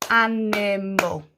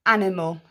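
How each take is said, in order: First: "animal" slowly split in three beats; "animal" drawn out, every syllable distinct. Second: Said in the usual way. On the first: Shown as a demonstration. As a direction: clap out each syllable of "animal". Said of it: "clap our syllables". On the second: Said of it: "Let's count".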